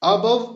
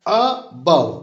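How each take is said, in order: First: Said in the usual way. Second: Above with a quick "a" and a long, strong "bove"; stress on second syllable. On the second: Shown as a demonstration. Teacher giving an iamb example, second-syllable stress on above. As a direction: hurry the first syllable of above, stretch the second. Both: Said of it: "आ देखिए बहुत जल्दी पढ़े और बव".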